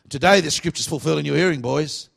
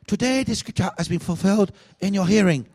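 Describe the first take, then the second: First: It is said in an Australian accent. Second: It is said in a Chinese accent.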